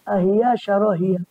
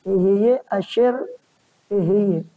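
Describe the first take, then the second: First: It starts with 'a', words run together. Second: It starts with 'e', three separate words. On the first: The speaker calls it wrong. "sering dibaca" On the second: The speaker calls it right. "yang sebetulnya itu bacanya"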